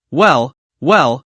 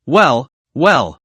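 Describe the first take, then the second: First: A lightly voiced, sneering well well; drawn out as a put-down; mock well well. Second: Lightly voiced sneer continuing; mock well well. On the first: Driver mocks the boastful passenger with sneering well well. Mocking the show-off executive. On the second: Driver keeps mocking the boastful passenger with sneering well well. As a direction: finish the put-down with each well falling.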